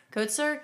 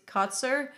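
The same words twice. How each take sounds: First: "Kotzer" with a long "oh": KOHT-ser, rising questioningly; second pronunciation attempt. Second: "Kotzer" with an open "ah": KAHT-ser; first pronunciation attempt. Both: Real, not acted. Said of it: "Troy Kos".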